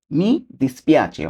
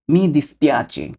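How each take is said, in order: First: Mi dispiace drawn out syllable by syllable; slow demo. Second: Said in the usual way. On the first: Shown as a demonstration. Teacher modelling mi dispiace very slowly for viewers. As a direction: spell out mi dispiace very slowly for learners. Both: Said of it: "এটাকে আমরা Italian ভাষা বলবো কি?".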